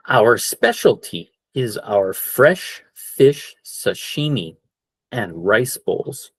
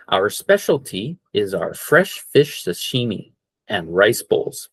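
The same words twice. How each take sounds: First: Slow model sentence. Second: Said in the usual way. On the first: Shown as a demonstration. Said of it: "there's the word again". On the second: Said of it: "for our Japanese restaurant here today".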